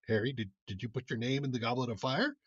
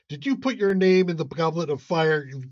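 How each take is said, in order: First: The line is said calmly and gently. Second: The line is shouted aggressively.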